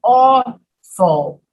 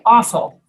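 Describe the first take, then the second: First: Awful with a long rounded aw; awful in slow syllables, East Coast style; East Coast pronunciation. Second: Awful opened like off-ul; California pronunciation. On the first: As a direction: draw out awful as AW-ful. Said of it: "on the East Coast is pronounced". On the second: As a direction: say awful with the vowel of off. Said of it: "So they say". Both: Shown as a demonstration.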